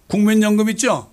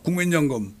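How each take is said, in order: First: 국민연금 called out loud and high; 국민연금 hit hard, falling at the end; emphatic. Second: Said in the usual way. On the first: Acted. Repeats the word, first loudly.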